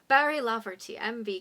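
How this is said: It is read in a put-on Irish accent.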